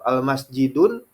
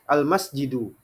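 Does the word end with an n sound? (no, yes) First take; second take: yes; no. First: The word ends in u followed by n. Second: The word ends in a plain u vowel. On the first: The speaker calls it wrong. "padahal ada alif lamnya dia baca dengan dhammah ten" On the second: The speaker calls it right. "Karena ada alif lam, maka dia itu isim ma'rifah"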